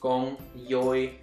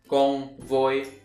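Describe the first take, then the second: First: The second word begins with a Y sound. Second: The second word begins with a V sound. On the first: "Southern would be con voi"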